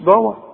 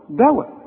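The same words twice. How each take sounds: First: The first consonant is thick and emphatic. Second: The first consonant is plain and thin. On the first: The speaker calls it wrong. "لو تخنت لي بقى الدال دي ... هتعمل مشكلة" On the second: The speaker calls it right. "دواء مش دواء"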